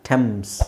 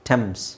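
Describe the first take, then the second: The two takes are said the same way.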